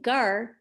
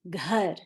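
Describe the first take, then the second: First: The first consonant has no breathy h after it. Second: The first consonant has a breathy h after it. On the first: The speaker calls it wrong. "I'm not saying gar" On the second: The speaker calls it right. "I'm saying ghar. Do you hear me pronouncing that H after the G?"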